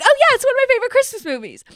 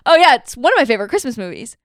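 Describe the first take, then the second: First: It is said with lively excitement. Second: It is said with tired, low energy.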